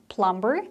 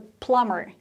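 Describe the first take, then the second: First: The b sound is pronounced in the middle. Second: The b sound is silent in the middle. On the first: The speaker calls it wrong. "So it's not plumber. That's what I hear a lot" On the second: The speaker calls it right. "B is silent"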